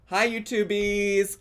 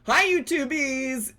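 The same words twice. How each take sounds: First: The greeting is said flatly, without excitement. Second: The greeting is said with lively excitement.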